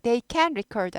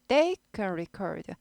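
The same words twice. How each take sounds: First: The word can is stressed. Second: The word they is stressed. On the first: It can sound like they cannot record. The speaker calls it wrong. "They can record 아니고" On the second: They are able to record. The speaker calls it right. "can을 약화시키기 위해서 they를 더 강하게 읽죠"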